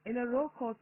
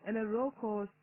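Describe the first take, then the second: No difference in how they are said.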